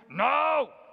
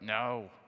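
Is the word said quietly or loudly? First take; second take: loudly; quietly. First: It is said loudly in a big burly voice. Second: It is muttered quietly under the breath.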